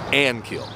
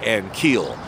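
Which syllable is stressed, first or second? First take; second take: first; second. First: The stress is on the first syllable. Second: The stress is on the second syllable. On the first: The speaker calls it right. "correct pronunciation is Ankiel. Accent on the first syllable" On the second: The speaker calls it wrong. "They say Ankiel, which is incorrect"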